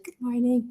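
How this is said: It is said in a calm, even way.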